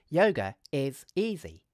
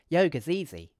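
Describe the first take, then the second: First: Each word is said separately with breaks. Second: Is is contracted, giving four syllables. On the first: "we could say each of the three words separately" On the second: "we could use a contraction"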